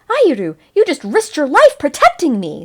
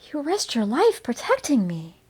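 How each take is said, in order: First: It is said forcefully, like an exclamation. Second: It is said softly, trailing off.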